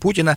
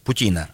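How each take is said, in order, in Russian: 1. Ударение на первом слоге. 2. Ударение на втором слоге. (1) "а не Путина" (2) "нужно правильно ставить ударение"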